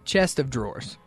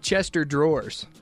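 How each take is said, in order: First: The 'of' is pronounced clearly after 'chest'. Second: The 'of' is merged, sounding like 'Chester'. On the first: The speaker calls it right. "And it's chest of drawers" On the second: The speaker calls it wrong. "she would say Chester drawers"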